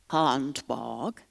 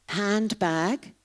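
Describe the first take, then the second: First: It is said in an Aberdonian accent. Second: It is said in a standard accent.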